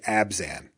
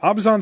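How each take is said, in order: First: It is said with a plain American English pronunciation. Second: It is said with a less American, foreign-sounding pronunciation. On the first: This is how most English-speaking players say it. The speaker calls it wrong. "when especially American English speakers say it, they say Abzan" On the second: This is the official way it is meant to be said. The speaker calls it right. "Abzan sounds okay, and I've kind of been trained to say that"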